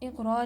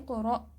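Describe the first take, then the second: First: The middle flows smoothly without a catch. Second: The middle has an abrupt catch in the throat. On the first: The speaker calls it wrong. "इक़रा नहीं पढ़ेंगे इसको, अगर इक़रा पढ़ेंगे तो ये गलत हो जाएगा" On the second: The speaker calls it right. "हमज़ा साकिन झटके से पढ़ा जाता है"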